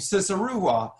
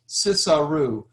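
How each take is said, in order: First: The name is said at normal speed. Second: The name is said slowly.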